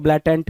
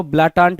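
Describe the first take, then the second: First: ब्लैटेंट with "ai" then short "e"; flat-A pronunciation. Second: ब्लाटांट with long "aa" in both syllables; broad-A pronunciation. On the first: Teacher showing students the other accepted reading, ब्लैटेंट with front vowels. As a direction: say ब्लैटेंट as "BLAY-tent". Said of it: "कुछ लोग ब्लैटेंट भी पढ़ेंगे". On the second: Teacher showing students one accepted reading, ब्लाटांट with long "aa" vowels. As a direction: say ब्लाटांट as "blaa-TAANT". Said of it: "कुछ लोग इसको ब्लाटांट भी पढ़ेंगे". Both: Shown as a demonstration.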